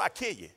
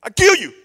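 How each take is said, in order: First: Said in the usual way. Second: High, loud, furious yell. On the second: Acted. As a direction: explode on KILL, loud and high. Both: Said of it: "He said".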